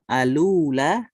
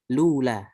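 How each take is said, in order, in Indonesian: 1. L pada artikel tersambung langsung ke ula. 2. Dimulai langsung dengan l, tanpa vokal di awal. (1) "nakal alula" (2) "dengan lula"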